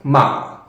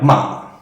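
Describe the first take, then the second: Both takes have the same delivery.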